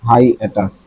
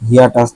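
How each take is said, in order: First: The word begins with a 'high' sound. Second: The word begins with a 'hee' sound. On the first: The speaker calls it right. "এটা হবে হাই হাই অ্যাটাচ" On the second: The speaker calls it wrong. "হিয়া টাচ না"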